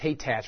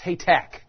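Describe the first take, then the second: First: The name ends with a ch sound. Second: The name ends with a k sound. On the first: The speaker calls it wrong. "And you think it's Haytach" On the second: The speaker calls it right. "It sounds like a K on the end"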